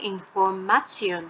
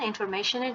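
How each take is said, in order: First: The word is pronounced the German way. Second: The word is pronounced the English way. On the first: The speaker calls it right. "উচ্চারণটা হবে ইনফরমেশন" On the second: The speaker calls it wrong. "ইনফরমেশনের জায়গায়"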